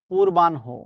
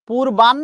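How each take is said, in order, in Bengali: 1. এতে অভিধানের আদর্শ উচ্চারণ ব্যবহার করা হয়েছে। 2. এতে প্রচলিত দৈনন্দিন উচ্চারণ ব্যবহার করা হয়েছে। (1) "উচ্চারণ হচ্ছে পূর্বাহ্ন" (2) "পূর্বাহ্ন না"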